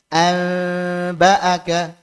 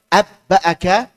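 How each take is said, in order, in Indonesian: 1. Bunyi n dinasalkan dan tersembunyi sebelum b. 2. Bunyi n melebur sepenuhnya menjadi b yang ganda. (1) "dibaca dengan ikhfa tidak cocok" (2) "diubah menjadi idgham atau dimasukkan ke huruf ba juga tidak cocok"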